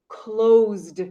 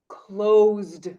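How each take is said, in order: Both takes have the same delivery.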